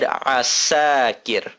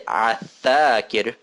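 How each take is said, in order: First: The second consonant is an s sound. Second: The second consonant is a th sound. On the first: The speaker calls it right. "I said asakir" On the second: The speaker calls it wrong. "I didn't say athakir"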